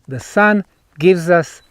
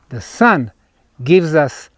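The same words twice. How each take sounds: The two takes are said the same way.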